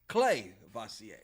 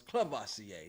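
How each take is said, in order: First: The first syllable sounds like the word 'clay'. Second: The first syllable is a short 'cla' sound. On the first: The speaker calls it right. "No, it's" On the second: The speaker calls it wrong. "I'd been saying it wrong. I thought it was"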